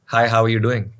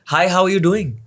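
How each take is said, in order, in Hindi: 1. यह सामान्य पिच में बोला गया है। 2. यह ऊँची पिच में बोला गया है। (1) "नॉर्मल" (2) "सो इट्स हाय"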